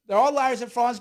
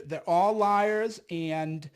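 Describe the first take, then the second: First: Louder and higher, indignant; loud outburst. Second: Said in the usual way. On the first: Real, not acted. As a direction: raise your voice, call them out. Rant building up.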